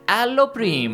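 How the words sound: It is said in an exaggerated Italian accent. The speaker calls it wrong. "like you're some kind of caricature of an Italian"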